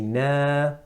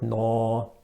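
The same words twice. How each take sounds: First: The vowel is thin and light. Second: The vowel is thick and heavy. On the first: The speaker calls it right. "we say na" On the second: The speaker calls it wrong. "not na"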